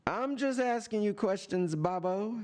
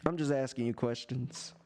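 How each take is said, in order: First: Higher, sing-song innocent tease; mock-innocent taunt. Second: Said in the usual way. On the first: Real, not acted. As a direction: play innocent to needle him. Repeated line, taunting higher.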